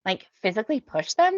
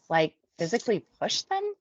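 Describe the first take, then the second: First: Higher, louder mimicked question; mocking echo. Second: Higher, puzzled rising question; genuinely confused. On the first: Lisa throws the newcomer's question back, mocking. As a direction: parrot the confused question back, exaggerated and higher. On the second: A narrator's reading. Newcomer asks group leader about pushing, confused. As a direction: check it in honest confusion, pitch up. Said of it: "I ask, genuinely confused".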